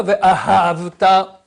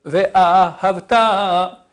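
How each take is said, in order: First: Ve'ahavta with the middle syllable held; wrong stress. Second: Ve'ahavta slow, with the ha slipped through quickly; middle syllable rushed. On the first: Teacher contrasting the wrong version, middle syllable held. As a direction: do not lean on ha in ve'ahavta. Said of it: "Et pas". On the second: Teacher showing the middle syllable passing quickly, the right way. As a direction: let the ha in Ve'ahavta pass fast. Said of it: "elle passe tric, rapidos". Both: Shown as a demonstration.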